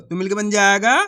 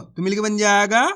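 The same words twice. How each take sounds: The two takes are said the same way.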